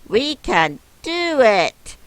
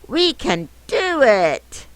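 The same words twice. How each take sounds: First: It is read in a plain, calm way. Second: It is said in a really excited way.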